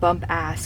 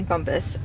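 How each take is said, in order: First: The second syllable sounds like 'ass'. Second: The second syllable sounds like 'us'. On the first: It is read the way it is spelled. The speaker calls it wrong. "I literally said bump ass because that's how it's spelled" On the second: It is said the way others say it. The speaker calls it right. "I'm just gonna say bumpus"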